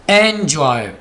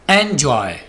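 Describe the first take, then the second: First: The first vowel sounds like the one in 'bet'. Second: The first vowel sounds like the one in 'bet'.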